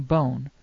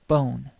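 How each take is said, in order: First: "bone" drawn out slowly; slow model word. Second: Said in the usual way. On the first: Shown as a demonstration. Teacher slowing "bone" so learners hear the vowel. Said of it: "Try saying bone". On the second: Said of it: "like the O in English".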